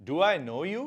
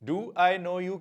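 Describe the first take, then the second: Both takes have the same delivery.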